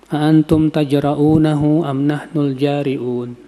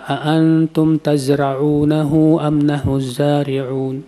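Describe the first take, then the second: First: The key consonant is pronounced as a j sound. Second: The key consonant is pronounced as a z sound. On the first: Asks whether you are the ones who dare. The speaker calls it wrong. "Dia baca apa?" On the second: Asks whether you are the ones who plant it. The speaker calls it right. "yang harusnya membaca"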